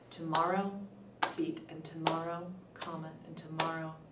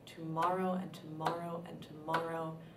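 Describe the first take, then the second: First: A pause separates each tomorrow from the next. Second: The three tomorrows run together without pauses. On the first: "or you could do tomorrow, beat, and tomorrow, comma" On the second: "it's sort of speaking in the beats"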